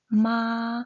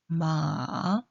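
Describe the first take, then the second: First: It is said with the first tone. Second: It is said with the third tone. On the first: "일" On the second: "삼"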